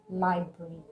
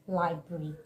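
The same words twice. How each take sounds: The two takes are said the same way.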